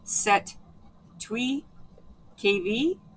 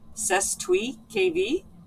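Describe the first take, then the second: First: The S in the first word is silent. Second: The S in the first word is pronounced. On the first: "which the S is silent" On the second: "you can pronounce it with"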